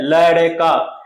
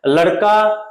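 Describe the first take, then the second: First: लड़का slow and drawn out, the ड़ held as a full heavy ड; लड़का stretched into ल-ड-का with a full ड; wrong pronunciation. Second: लड़का said quickly, the ड़ a single quick tongue flick; लड़का with a light flapped ड़, no weight on it; correct flapped ड़. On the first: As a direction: say लड़का the wrong way, lingering on the middle consonant. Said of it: "ये सही नहीं है". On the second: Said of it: "नहीं, इसको हम बोलेंगे लड़का". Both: Shown as a demonstration.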